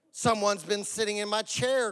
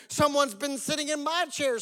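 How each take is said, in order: First: Mild storybook growl; lightly voiced big bear, pitched near usual; Papa Bear. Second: High storybook bear voice; Mama Bear. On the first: Papa Bear finds his chair used, mild growl. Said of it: "growled the Papa Bear". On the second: Mother bear finds her chair used, high voice. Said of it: "said the Mama Bear". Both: A narrator's reading.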